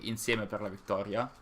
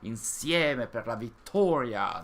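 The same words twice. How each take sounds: First: It is said lightly, with an easy natural accent. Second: It is said with a heavy, exaggerated accent. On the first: This is how a northern Italian naturally says it. The speaker calls it right. "I just say Insieme per la Vittoria, and that's uh, easy like that" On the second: This is how the game's characters say it. The speaker calls it wrong. "they push on that... They make it super super heavy"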